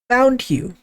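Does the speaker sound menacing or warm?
warm. It is said in a warm, relieved tone. A parent is glad to have found a lost child. "your mom found you, and then she says"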